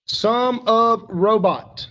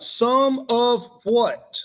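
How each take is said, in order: First: Slow, louder, weight on of; stressed phrase. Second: Drawn out, some of what; slow emphatic question. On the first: Teacher slowly answering own question for class. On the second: Teacher slowly quizzing class on the phrase. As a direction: stretch the question to make them think. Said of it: "What am I talking about?". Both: Shown as a demonstration.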